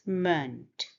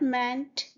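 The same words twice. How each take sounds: First: "meant" reduced to "munt", falling; schwa vowel. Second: "meant" with an open "a", like "mant"; full vowel, mispronounced. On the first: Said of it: "this is schwa sound". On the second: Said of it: "It's not meant". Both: Shown as a demonstration.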